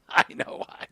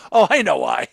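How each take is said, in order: First: Knowing whisper; whispered aside. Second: Loud, knowing exclamation; loud realisation. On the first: Host repeating the joke to co-host, knowing whisper. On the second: Host joking about why a voice stopped, loud exclamation. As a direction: burst out with sudden realisation. Knowing joke, repeated under breath. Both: Real, not acted.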